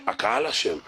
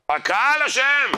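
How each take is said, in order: First: Said in the usual way. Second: High, slow, loud cry of "אשם"; loud outburst. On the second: Shown as a demonstration. Rabbi thunders blame at the congregation, loud and slow. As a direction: drag out "הקהל אשם" much higher, louder and slower.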